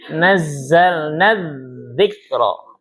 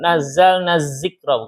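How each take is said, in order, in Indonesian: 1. Bunyi z-nya bersuara, tanpa desis. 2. Bunyi z-nya bersuara, dengan desis. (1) "Yang za enggak ada desisnya"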